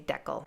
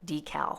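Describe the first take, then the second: First: The word is said the Canadian way. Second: The word is said a non-Canadian way. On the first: This is how people in Canada say it. "We say decal" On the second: This is how people elsewhere say it. "We don't say decal"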